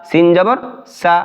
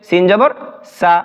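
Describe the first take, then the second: No difference in how they are said.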